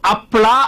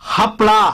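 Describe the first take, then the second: First: The word begins with a bare vowel sound. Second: The word begins with a clear h sound. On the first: The speaker calls it wrong. "ಅದು ಹಪ್ಳ ಅಲ್ಲ ಕಣೆ" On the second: The speaker calls it right. "ಆ ಅಲ್ಲ, ಹ ಹ ಅನ್ಬೇಕು"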